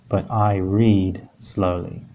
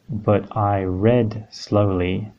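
First: The word 'read' is said like 'reed'. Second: The word 'read' is said like 'red'. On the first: The reading is a usual, everyday action. The speaker calls it right. "So every day, usually, in general, I read slowly" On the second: The reading happened in the past. The speaker calls it wrong. "So here we could have, ... But this wouldn't make as much sense"

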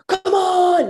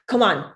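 First: It is yelled loudly. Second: It is said quietly and encouragingly.

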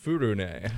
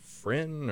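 First: The name is said as two syllables. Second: The name is said as one short syllable. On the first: This is how the show actually says it. "they pronounce it kind of Furune" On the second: This is how the spelling suggests reading it. "So you'd think like Frin"

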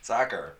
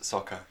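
First: It is said in an American accent. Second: It is said in a British accent.

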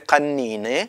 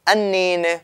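First: The word starts with a deep k sound. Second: The word starts with a glottal stop. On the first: "בקבוק זה קנינה" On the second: "ובירושלים הוגים אנינה, במקום קף, א'"

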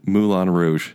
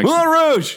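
First: The title is said in a flat, plain way. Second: The title is said loudly with excited emphasis. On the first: The speaker calls it wrong. "that's not how you say it" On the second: The speaker calls it right. "There's an exclamation"

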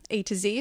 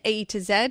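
First: The last letter is said American-style, zee. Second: The last letter is said British-style, zed.

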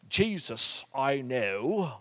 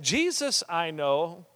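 First: It is spoken with a British accent. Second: It is spoken without a British accent.

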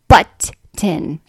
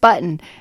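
First: The T sound is crisply over-pronounced. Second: The T sound is soft and natural. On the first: "overpronounce the T's" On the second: "just button"

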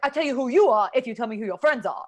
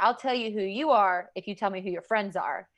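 First: It imitates the teacher's way of talking. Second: It is said in the speaker's plain voice.

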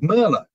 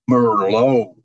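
First: It is said with a non-American pronunciation. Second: It is said with an American pronunciation. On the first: The waiter misheard it as a beer. The speaker calls it wrong. "I would order a glass of Merlot. And the waiter would bring me a glass of Miller beer" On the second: The waiter understands the order. The speaker calls it right. "it's actually Merlot that Americans say"

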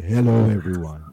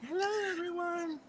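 First: It is said in a deep bass voice. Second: It is said in a high, choirboy voice.

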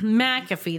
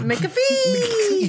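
First: The name is said in a plain voice. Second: The name is said in an exaggerated put-on voice.

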